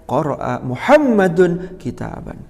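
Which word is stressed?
Muhammadun. The stress falls on the second word, Muhammadun. It answers who read the book. "Kalau yang ditanya siapa yang membaca kitab"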